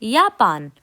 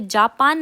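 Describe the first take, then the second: First: It begins with a 'y' sound. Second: It begins with a 'j' sound. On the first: The speaker calls it right. "जो जे है उसको हम वाई की तरह प्रोनाउंस करते हैं" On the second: The speaker calls it wrong. "हम यहाँ पे जापान नहीं कहते हैं"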